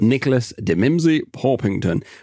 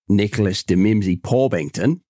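First: It is said in the speaker's ordinary accent. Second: It is said in an Australian accent.

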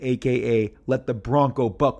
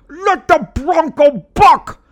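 First: It is read out flatly. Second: It is shouted with loud excitement.

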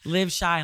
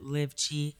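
First: Chi starts with a sh sound. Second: Chi starts with a sound other than sh. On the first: This is how the speaker says the name. "like Chicago" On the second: This is how some people say the name. "some people pronounce it Live Chi"

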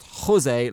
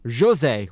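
First: It begins with an H sound. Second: It begins with a soft zh sound. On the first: The speaker calls it wrong. "not Jose like a garden hose" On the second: The speaker calls it right. "with a soft J like the G in Rogue"

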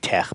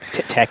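First: The word ends in a throaty, breathy sound. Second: The word ends in a hard k sound. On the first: This is the intended pronunciation that nobody uses. "is really supposed to be tech, but nobody says it that way" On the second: This is how people usually say it. "it's tech"

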